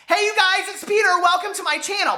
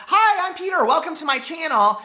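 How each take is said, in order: First: Squeaky intro voice. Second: Much higher, bright channel greeting; squeaky intro voice. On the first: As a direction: sing out the hello way up high. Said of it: "squeaky and high-pitched". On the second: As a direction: chirp the hello way up high. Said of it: "you don't have to be squeaky and high-pitched". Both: Retold or imitated.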